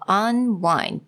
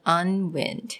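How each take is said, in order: First: The ending does not sound like moving-air wind. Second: The ending sounds like the word for moving air. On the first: The speaker calls it right. "so unwind 并不是unwind" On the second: The speaker calls it wrong. "并不是unwind"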